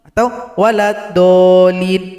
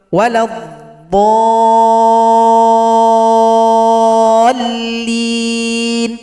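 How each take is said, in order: First: Waladdallin sung with the dhad too short, louder; wrong short dhad. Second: Waladhdallin chanted very slow, higher and loud, dhad held six beats; chanted, hold the dhad long then press the lam. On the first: Teacher sings the mistaken short dhad. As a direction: rush the dhad on purpose. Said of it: "kurang tepat". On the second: Teacher recites the long dhad, loud chant. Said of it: "baru tasydid pada huruf lam". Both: Shown as a demonstration.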